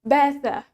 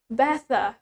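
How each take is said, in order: First: The t is crisp and the final r is soft. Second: The same.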